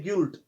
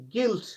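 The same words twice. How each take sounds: First: गिल्ट mispronounced with a U sound, "gult"; wrongly sounded U. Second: गिल्ट with a plain i, no U; silent U. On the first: Teacher shows the mistake, U sounded in गिल्ट. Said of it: "that is wrong।". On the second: Teacher models the word, U silent in गिल्ट. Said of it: "यू silent रहता है". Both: Shown as a demonstration.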